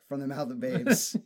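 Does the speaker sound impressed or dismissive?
dismissive. It sounds dismissive and sarcastic. The child said something silly. "All right"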